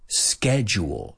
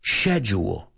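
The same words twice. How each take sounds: First: It is said in an American accent, starting 'sk'. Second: It is said in a British accent, starting 'sh'. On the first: "Americans say schedule" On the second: "The British say, shh, shh, dilo conmigo"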